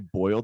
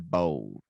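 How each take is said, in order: First: It is said in a standard American accent. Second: It is said in a Southern American accent. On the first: "they don't say boiled" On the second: "how Southerners say"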